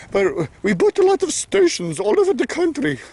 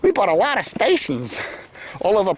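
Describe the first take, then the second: First: High-pitched put-on Minnesota accent. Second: Said in the usual way. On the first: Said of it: "I should do my Minnesota accent". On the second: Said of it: "I'm not doing my, my Minnesota".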